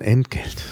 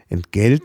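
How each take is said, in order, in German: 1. Die Betonung liegt auf der ersten Silbe. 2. Die Betonung liegt auf der zweiten Silbe. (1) "Tendenz, einen Akzent nach vorne zu schieben" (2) "nicht Entgelt sagen"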